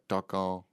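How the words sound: The name is said with a French accent. "They'd be like Tarkan"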